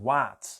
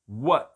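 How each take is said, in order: First: The vowel is a wide, open a. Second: The vowel is a more closed a. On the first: The speaker calls it wrong. "não é what, com A bem aberto" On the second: The speaker calls it right. "o A é mais fechadinho"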